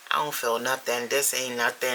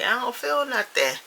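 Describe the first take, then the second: First: Unimpressed mock quote; dismissive. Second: High-pitched put-on grumble; exaggerated high protest; mock complaint. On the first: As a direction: play the unimpressed first-timer. Imagined first-timer dismissing the edible. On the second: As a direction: whine it high like an impatient first-timer. Imagined first-timer complaining again.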